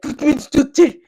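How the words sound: It is said with harsh, guttural, exaggerated throat sounds. The speaker calls it wrong. "stop throwing up, stop screaming. It's not German"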